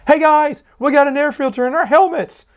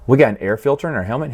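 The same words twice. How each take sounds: First: Much higher, eager shout to the squad; excited announcement. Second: Quick, puzzled question rising at the end; dim surprised question. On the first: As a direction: dim clone thrilled by his discovery. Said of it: "He goes". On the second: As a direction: dumb clone just learning his helmet has a filter. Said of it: "He went". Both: Retold or imitated.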